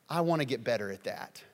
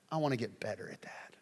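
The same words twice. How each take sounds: First: Said in the usual way. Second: Softer whispered confession. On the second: Acted. Humble believer confessing to himself, whisper. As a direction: breathe it out privately.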